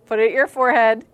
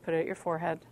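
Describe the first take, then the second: First: Much louder repeated order; loud insistence. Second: Said in the usual way. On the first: Real, not acted. Speaker telling reluctant girls to join in, loud insistence. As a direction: push the instruction out loudly to the room.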